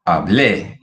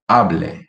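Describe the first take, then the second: First: Hable stressed on the final -BLE; stress on last syllable. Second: Hable with stress on HA; stress on first syllable. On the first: Teacher contrasting verb forms for learners, final-syllable stress on Hable. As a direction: land hard on the end of Hable. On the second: Teacher contrasting verb forms for learners, first-syllable stress on Hable. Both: Shown as a demonstration. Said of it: "how the accent makes the difference".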